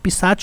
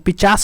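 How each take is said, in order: First: The word ends with a 'ch' sound. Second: The word ends with an 's' sound. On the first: The speaker calls it right. "पिशाच होता है" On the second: The speaker calls it wrong. "पिचास नहीं होता है"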